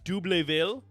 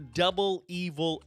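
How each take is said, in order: First: The two words are mushed into one. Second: The two words are said separately. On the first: "that was my best shot at the pronunciation" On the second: "most people call him Double Evil"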